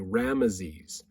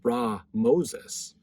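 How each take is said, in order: First: The middle syllable sounds like 'me'. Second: The middle syllable sounds like 'mo'. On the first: The speaker calls it wrong. "we pronounce it that same way" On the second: The speaker calls it right. "more proper way to say it is actually"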